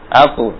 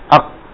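First: The final q is released with a bounce. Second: The final q is held with no bounce. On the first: It is lighter on the tongue. The speaker calls it right. "tapi kalau dipantulkan atu, ya, lebih ringan" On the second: It is heavy on the tongue. The speaker calls it wrong. "kalau enggak dipantulkan, enggak dikeluarkan dalam bentuk pantulan, berat"

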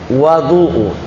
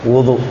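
First: The first vowel is an a sound. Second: The first vowel is an u sound. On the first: The water prepared for ritual washing. "Kedua bisa dibaca dengan fathah" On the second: The act of ritual washing itself. "Yang pertama dibaca dengan dhammah"

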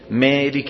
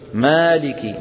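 First: The long vowel is raised slightly toward 'e'. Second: The long vowel is a fully open 'a'. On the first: The speaker calls it wrong. "ما هذا الصوت هو الإمالة الصغرى بعينها، ولا يصح" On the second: The speaker calls it right. "المفروض أن يقول إيش؟"

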